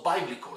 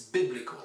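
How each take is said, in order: First: 'biblical' wrongly as BYE-blical; long-i biblical. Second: 'biblical' as BIB-lical; short-i biblical. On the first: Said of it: "it's not biblical". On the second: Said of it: "it's biblical". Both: Shown as a demonstration.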